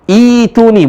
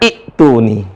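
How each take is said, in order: First: The first vowel is long, with no glottal stop. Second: A glottal stop follows the first vowel. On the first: The speaker calls it right. "Yang benar adalah" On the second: The speaker calls it wrong. "bukan dibaca"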